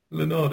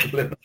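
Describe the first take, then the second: First: Said in the usual way. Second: Leonard drawn out very high and posh; posh pronunciation. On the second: Pretend. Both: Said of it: "It sounds like a posh way of saying Leonard".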